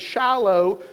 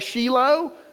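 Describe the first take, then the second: First: The name is said with an American English pronunciation. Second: The name is said with an Israeli pronunciation.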